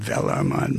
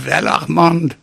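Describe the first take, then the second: First: Put-on low, soft Hebrew-French accent; mock Hebrew-French accent, softer and deeper. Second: Put-on German-French accent; mock German-French accent. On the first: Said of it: "maybe that was a Hebrew-French accent". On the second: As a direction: speak as a German-French psychiatrist, thick V for W. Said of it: "that was a German-French accent".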